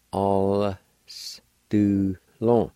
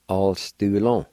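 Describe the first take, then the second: First: "All s do long" slowly, part by part; slow syllable-by-syllable demo of "All s do long"; sounded out. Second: Said in the usual way. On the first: Shown as a demonstration. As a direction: draw out "All", then pause before each of "s", "do", "long". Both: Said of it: "like this".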